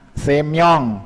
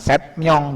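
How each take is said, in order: First: There is no T sound before myong. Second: A T sound comes before myong. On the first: The speaker calls it right. "Contohnya semyong" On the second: The speaker calls it wrong. "bukan setmyong"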